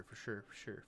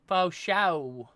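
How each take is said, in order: First: Said in the usual way. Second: "Faux show" said with the r's dropped, like faux show; weird pronunciation. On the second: Shown as a demonstration. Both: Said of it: "I don't know why I said it like that".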